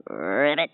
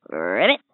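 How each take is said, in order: First: Low, soft ribbit croak; frog croak. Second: Low, soft croaked ribbit; a deep little frog croak. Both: Acted.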